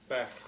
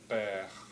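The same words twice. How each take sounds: First: The vowel is said short and quick. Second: The vowel is held about twice as long. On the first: This is how Western speakers say it. "Many Western speakers pronounce the word for lungs as bech, with a short vowel" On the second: This is how Eastern speakers say it. "whereas Eastern speakers pronounce it as bech"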